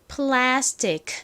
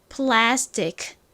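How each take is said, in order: Both takes have the same delivery.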